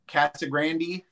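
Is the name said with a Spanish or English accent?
English. It is said with an English accent.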